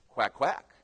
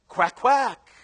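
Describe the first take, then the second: First: It is said at normal, softer volume. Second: It is said more loudly.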